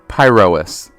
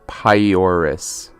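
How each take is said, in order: First: The R sound comes before the O sound. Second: The O sound comes before the R sound. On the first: The speaker calls it right. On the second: The speaker calls it wrong.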